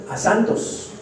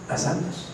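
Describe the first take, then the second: First: Said in the usual way. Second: Whispered echo. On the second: Acted. Preacher echoing his answer to the congregation in a whisper. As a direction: whisper "A santos" back, no voice.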